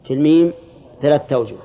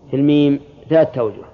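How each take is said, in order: Both takes have the same delivery.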